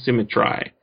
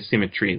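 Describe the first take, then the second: First: The last syllable sounds like 'try', rhyming with eye. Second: The last syllable sounds like 'tree', not rhyming. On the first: The speaker calls it right. "You have to read it like that" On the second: The speaker calls it wrong. "You can't say symmetry. That doesn't work"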